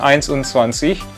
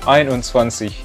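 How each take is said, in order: First: An s sound follows the first syllable. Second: No s sound follows the first syllable. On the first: The speaker calls it wrong. "Bukan einundzwanzig" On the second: The speaker calls it right. "S-nya dihilangin jadi einundzwanzig"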